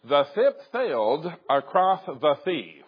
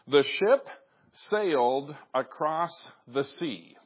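First: The S sounds are pronounced with a lisp. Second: The S sounds are pronounced clearly. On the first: The speaker calls it wrong. "no, that's not quite right" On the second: The speaker calls it right. "repeat the following sentence"

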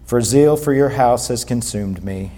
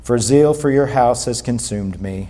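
First: It is read in a flat, dull way. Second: It is read in a flat, dull way.

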